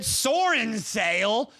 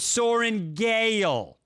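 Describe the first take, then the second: First: The second part starts with an s sound. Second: The second part starts with a g sound. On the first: The speaker calls it wrong. "Where the fuck are you pulling this S from?" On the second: The speaker calls it right. "That is an easy name"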